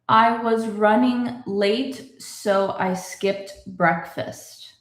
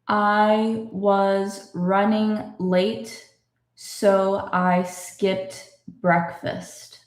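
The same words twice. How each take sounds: First: It is read a bit faster. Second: It is read slowly.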